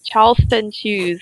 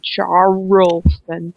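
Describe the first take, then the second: First: Said in the usual way. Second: "Charleston" with a drawn-out "char-roll"; laboured R. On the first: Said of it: "That sounds more natural". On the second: Shown as a demonstration. Comparing with the natural way, laboured R in "Charleston". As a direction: overpronounce the R in "Charleston", stretching it. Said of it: "hard for me to say the R".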